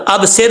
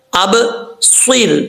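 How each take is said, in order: First: "اب سر" with a thin, light s; saad misread as seen. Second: "اب سر" slowly, s thick and full; full, heavy saad. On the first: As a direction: say "اب سر" with a plain seen. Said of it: "ایسا نہیں کرنا". ("اب سر" میں باریک سین کی غلطی) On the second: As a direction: bounce the b, then heavy saad in "اب سر". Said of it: "صاد ہے". ("اب سر" میں صاد پُر پڑھیں) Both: Shown as a demonstration.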